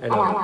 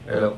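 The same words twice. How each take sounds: First: The voice is pitched up like a chipmunk. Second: The voice has a reverb effect added. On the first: "Naging chipmunk?" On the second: "nawala yung echo, naging reverb"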